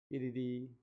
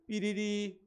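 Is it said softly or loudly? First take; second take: softly; loudly. First: It is said softly and lightly. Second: It is said more loudly.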